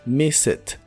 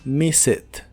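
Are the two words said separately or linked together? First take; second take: linked; linked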